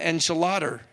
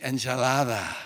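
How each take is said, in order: First: It is said with a plain American English accent. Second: It is said with a Latin American Spanish accent. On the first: The speaker calls it wrong. "you don't go and order an enchilada" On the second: The speaker calls it right. "you say enchilada"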